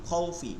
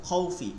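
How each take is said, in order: No difference in how they are said.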